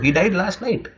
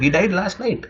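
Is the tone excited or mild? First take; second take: excited; excited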